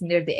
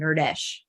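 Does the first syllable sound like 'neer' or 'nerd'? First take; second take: neer; nerd. First: The first syllable sounds like 'neer'. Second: The first syllable sounds like 'nerd'. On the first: The speaker calls it right. "It's Nirdesh, N I R D E S H" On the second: The speaker calls it wrong. "she can't pronounce it right, so she calls him Nirdesh, which like has the word nerd in it"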